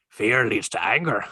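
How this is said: It is said in a Hagrid-like voice.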